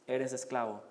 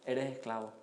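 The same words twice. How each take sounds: The two takes are said the same way.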